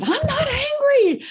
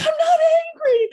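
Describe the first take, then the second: First: High, loud mock-indignant denial of being angry; hammed-up retold protest, voice jumping way up. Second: High, loud, half-crying mock shout of denial; the protest now cracking into a laughing wail; escalated mock angry yell. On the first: Recalling snapping back at her friend at the top of the stairs, high, loud mock denial. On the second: Recalling insisting to her friend she isn't angry, high, loud, half-crying mock shout. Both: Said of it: "Sounds like the response of an angry person".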